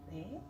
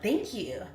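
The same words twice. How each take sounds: First: Soft, doubtful acted thanks; half-hearted thanks. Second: Louder, openly pleased acted thanks. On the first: Streamer answering praise while eating honey buns, half-hearted. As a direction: take the compliment quietly, unconvinced. Doubtful reply to unearned compliment. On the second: Streamer as imagined gym-head answering praise, pleased. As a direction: accept the compliment brightly and firmly. Pleased reply to deserved compliment.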